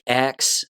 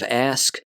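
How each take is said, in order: First: The final sounds are swapped to 'ks'. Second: The word ends in the 'sk' order. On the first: The speaker calls it wrong. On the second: The speaker calls it right.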